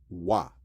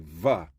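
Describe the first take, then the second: First: It begins with a W sound. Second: It begins with a V sound. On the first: The speaker calls it right. "the same pronunciation as the W" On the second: The speaker calls it wrong. "They'll pronounce it as a V"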